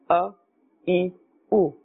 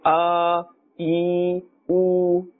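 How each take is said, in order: First: Each vowel is gentle and of normal length. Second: Each vowel is stretched out and prolonged. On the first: The speaker calls it right. "The normal manner is a very gentle and normal and common manner" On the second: The speaker calls it wrong. "neither should we pull and say"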